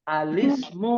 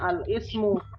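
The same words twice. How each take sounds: First: The 'l' runs straight into 'ismu' without a break. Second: The word 'ismu' starts with its own vowel onset. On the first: The speaker calls it right. "Kan nggak boleh dibaca kalau ketemu alif lam nih. Jadi dibacanya apa?" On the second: The speaker calls it wrong. "kalau kita nggak tahu hamzah ha- wasol, bacanya al-ismu. Salah"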